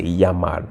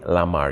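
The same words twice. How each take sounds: First: Llamar starting with a Y sound, yamar. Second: Lamar starting on a plain L; L sound, wrong. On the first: Teacher shows students the LL, llamar with Y sound. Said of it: "it actually makes the Y sound". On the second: Teacher shows students what not to say, lamar with L. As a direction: say lamar with an English-style L at the front. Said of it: "You wouldn't say lamar". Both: Shown as a demonstration.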